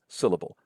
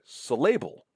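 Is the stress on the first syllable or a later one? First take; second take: first; later. First: The stress falls on the first syllable. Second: The stress falls on a later syllable. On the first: The speaker calls it right. "It's syllable. Stress syllables, a stressed sound, and then unstressed, unstressed" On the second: The speaker calls it wrong. "you're not going to say syllable or syllable"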